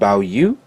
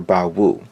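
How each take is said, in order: First: The second syllable begins with a y sound. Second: The second syllable begins with a w sound. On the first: Some people insist this is correct. "It's either pronounced Bao Yu or" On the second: This is how it is said in America. "here in America, we say it Bao Wu"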